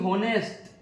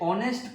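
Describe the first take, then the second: First: The word begins with an h sound. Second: The word begins with a vowel, no h sound. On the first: The speaker calls it wrong. "ना कि होनेस्ट" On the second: The speaker calls it right. "इसे ऑनेस्ट पढ़ा जाता है"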